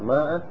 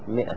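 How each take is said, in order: First: The first vowel is a long 'a'. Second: The first vowel is a short 'i'. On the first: The speaker calls it wrong. "وبعضهم يقول ماء وغلط" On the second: The speaker calls it right. "لكن تلفظ 100"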